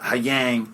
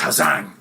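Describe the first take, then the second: First: The second word starts with a y sound. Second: The second word starts with a z sound.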